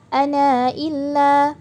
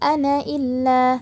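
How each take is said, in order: First: The final vowel of ana is held short. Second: The long vowel at the end of ana is dropped.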